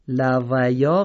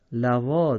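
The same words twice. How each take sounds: First: لویا slow, ی sounded; wrong reading. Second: لوا slow, read lawā; correct reading. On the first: Teacher showing students what to avoid. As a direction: slowly demonstrate the mistaken لویا. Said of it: "لویا غلطه". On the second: Teacher giving students the right form. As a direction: say لوا slowly with no ی. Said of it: "لوا درسته". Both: Shown as a demonstration.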